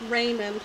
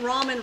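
First: It is said like the name Raymond. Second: It is said as rah-men, with no d. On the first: The speaker calls it wrong. "I always say that. Raymond. ... I always thought that was right, but apparently not" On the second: The speaker calls it right. "I've been saying ramen for you guys"

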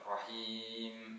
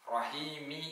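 First: The word ends on the m consonant. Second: The word ends with a short i vowel. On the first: The reciter stops after this verse. "നിർത്തി ഓതുകയാണ് എങ്കിൽ" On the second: The reciter joins this verse to the next. "കൂട്ടി ഓതുകയാണ് എങ്കിൽ റഹീമി എന്ന് മീമിന് കസ്റ ഉച്ചരിച്ചുകൊണ്ട്"

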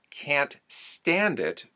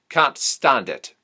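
First: The A vowel is flat. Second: The A vowel is broadened toward aw. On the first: "from the song lyrics" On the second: "the A sound is broadened into an aw"

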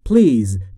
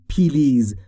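First: P and L join with no vowel between. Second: An extra vowel is heard between P and L. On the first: The speaker calls it right. "بین P و L صدایی وجود نداره" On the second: The speaker calls it wrong. "تلفظ اشتباهی است اگر بگویید پیلیز"

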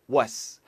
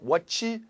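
First: The t sound is dropped before the s. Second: The t sound is clearly pronounced. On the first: The speaker calls it right. "S 때문에 T 손 빼세요" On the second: The speaker calls it wrong. "What's 하지 마세요"

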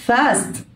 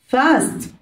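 The two takes are said the same way.

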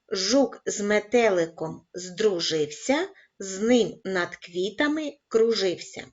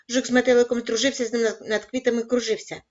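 First: It is read at a very slow pace. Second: It is read at a very fast pace. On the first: "розпочинаємо із повільного темпу" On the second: "кожного разу пришвидшуючи темп"

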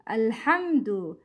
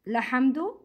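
First: The word begins with a vowel before the l. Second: The word begins directly with an l sound. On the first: The speaker calls it right. "we pronounce Hamzat Al-Wasl" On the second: The speaker calls it wrong. "It's not Lahamdu"

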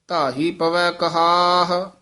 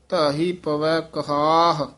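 Both takes have the same delivery.

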